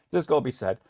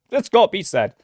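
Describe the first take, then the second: First: "That's gotta be said" repeated softer to himself; quiet repeat. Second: "That's gotta be said" with a punched "gotta" and a falling end; emphatic declaration. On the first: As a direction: murmur it as an echo. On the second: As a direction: declare it firmly. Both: Shown as a demonstration.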